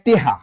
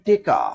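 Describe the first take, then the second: First: Said teha, with e and h. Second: Said teka, with e and k. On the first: Comilla regional form. "Comilla কয় টেহা" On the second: Mymensingh regional form. "কোন অঞ্চলে কয় টেকা ... ময়মনসিং"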